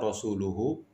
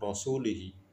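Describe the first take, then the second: First: The ending is said with u vowels. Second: The ending is said with i vowels. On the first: God and his messenger are free of the idolaters. The speaker calls it right. "harusnya rasuluhu" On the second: God is free of the idolaters and of his messenger. The speaker calls it wrong. "dibaca kasroh rasulihi"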